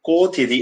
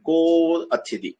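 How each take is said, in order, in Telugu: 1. ఈ రెండు పదాలు ఒకటిగా కలిపి పలకబడ్డాయి. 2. ఈ రెండు పదాలు విడివిడిగా పలకబడ్డాయి.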